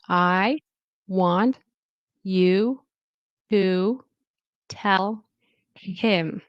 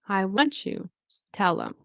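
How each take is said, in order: First: Each word is said separately and clearly. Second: The words run together, with 't you' becoming 'chu'. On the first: "I'm going to say it individually, each word" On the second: "how you might hear it"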